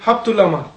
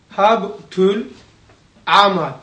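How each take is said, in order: First: The phrase is said at a faster pace. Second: The phrase is said at a slower pace.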